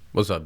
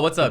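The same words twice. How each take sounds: First: The greeting sounds annoyed and bothered. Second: The greeting sounds relaxed and friendly. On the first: The greeter is upset with the listener. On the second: A casual, friendly hello.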